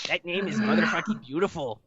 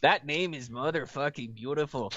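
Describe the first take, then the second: First: Put-on over-the-top Hispanic accent, shouted. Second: Put-on light Hispanic accent, half-hearted; a hint of a Hispanic accent. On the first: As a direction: belt it in a hammy Hispanic accent. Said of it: "Put in a hundred and ten percent". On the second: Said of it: "do the Hispanic accent".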